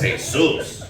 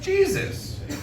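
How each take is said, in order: First: The name has a Spanish pronunciation. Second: The name has an English pronunciation. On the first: It refers to an ordinary guy with that name. "walks in three hours late, holes in his jeans, smelling like weed, carrying a six pack of Modelo" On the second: It refers to the holy Son of God. "the one that died on the cross, all holy, God's Son"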